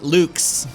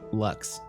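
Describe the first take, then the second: First: The word has a long oo vowel. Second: The word has a short uh vowel. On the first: The speaker calls it wrong. "not Luke's" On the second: The speaker calls it right. "so Lux"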